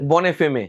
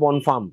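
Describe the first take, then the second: First: The name is said with Bengali-style pronunciation. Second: The name is said with French-style pronunciation. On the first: This is how many local people say it. "অনেকে বনেফেমে বলে" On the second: This is the original pronunciation. "French উচ্চারণে এটা বনফার্ম"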